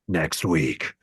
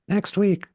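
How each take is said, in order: First: It is said in a dark, scary voice. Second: It is said in a bright, bubbly voice. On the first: "serious, scary thriller" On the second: "a little more bubblegummy"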